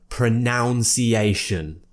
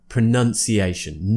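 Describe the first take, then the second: First: The second syllable sounds like 'nounce'. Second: The second syllable sounds like 'nun'. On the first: The speaker calls it wrong. "It's not pronunciation" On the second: The speaker calls it right. "it's pronunciation. Pronunciation. None"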